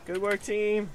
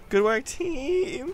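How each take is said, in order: First: Said in the usual way. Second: High, slow, wavering whimper; mock whimper. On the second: Gamer thanking teammates while pretending to cry, mock whimper. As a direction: start to break into fake tears. Fake praise turning to crying.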